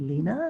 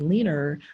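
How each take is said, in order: First: It ends with a plain vowel, no r. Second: It ends with an added English r sound.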